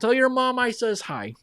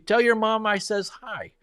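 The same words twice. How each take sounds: First: It is said in a put-on Wisconsin accent. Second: It is said in the speaker's ordinary accent.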